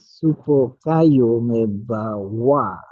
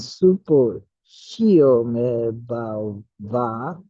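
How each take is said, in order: First: The second word sounds like kayo. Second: The second word sounds like shio. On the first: This is the Tibetan pronunciation. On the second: This is the Sanskrit pronunciation.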